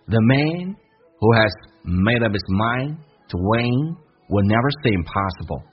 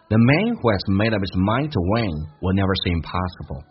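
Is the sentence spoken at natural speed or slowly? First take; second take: slow; natural. First: The sentence is spoken slowly and carefully. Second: The sentence is spoken at natural, connected speed. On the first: "慢速版本" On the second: "自然一点"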